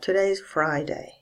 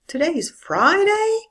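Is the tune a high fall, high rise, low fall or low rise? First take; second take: low fall; high rise. First: It starts low and falls even lower. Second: It starts high and rises even higher. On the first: It simply states a fact. "can be said with a low fall" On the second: The speaker cannot believe it. "High rise. I start high and I go even higher"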